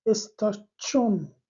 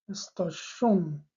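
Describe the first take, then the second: First: استاشون said slowly with a clear ch sound in the middle; teacher showing the ch sound in استاشون. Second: Teacher contrasting the sh sound in استاشون. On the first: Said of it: "تلفظ این کلمه چی است؟". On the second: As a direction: draw out استاشون and make the middle a sh sound. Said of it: "تلفظ این کلمه استاشون نیست". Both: Shown as a demonstration.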